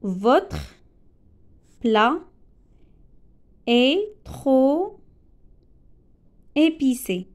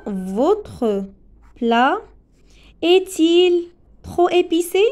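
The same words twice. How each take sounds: First: Said in the usual way. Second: "est-il trop épicé" pushed higher and louder as a question; question intonation. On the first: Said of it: "Non, pardon". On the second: Shown as a demonstration. Teacher correcting the example into a question, higher and louder. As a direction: ask it, lifting "est-il" high. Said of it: "c'est une phrase interrogative".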